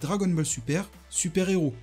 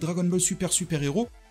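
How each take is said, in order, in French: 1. Une pause respiratoire sépare Super de super-héros. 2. Super enchaîne directement sur super-héros, sans pause. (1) "en prenant un temps de respiration" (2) "si vous ne vous arrêtez pas à la fin de Dragon Ball Super et que vous enchaînez avec super-héros"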